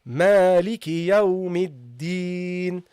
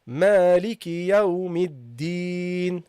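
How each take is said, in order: Both takes have the same delivery.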